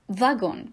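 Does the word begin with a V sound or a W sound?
V sound. The word begins with a V sound. This is how it is said in France. "En France, on prononce la lettre W comme V"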